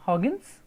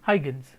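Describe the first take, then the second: First: The name gets its original, non-Indian pronunciation. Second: The name gets the usual Indian pronunciation. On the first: "The pronunciation is Huygens" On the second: "we Indians when you use it, we say Huygens"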